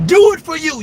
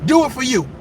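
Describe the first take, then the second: First: Louder insistent second take; louder, insistent repeat. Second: Said in the usual way. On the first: Acted. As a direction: push it harder the second time.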